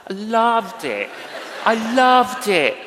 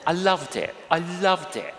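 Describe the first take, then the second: First: Laughing and calling it out louder; laughing joy. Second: Said in the usual way. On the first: Real, not acted. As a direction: laugh through it, bursting with real delight. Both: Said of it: "I was a barista".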